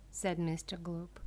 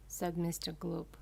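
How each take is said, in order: Both takes have the same delivery.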